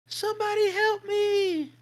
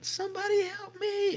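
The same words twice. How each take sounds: First: Very high, slow, drawn-out eerie cry. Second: Very high, unchanging eerie cry. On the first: Storyteller mimicking the voice calling from the woods, very high eerie cry. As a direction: imitate a strange voice calling from the dark woods. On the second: Storyteller repeating the voice from the woods, very high eerie cry. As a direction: repeat the strange call in exactly the same tone. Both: Retold or imitated.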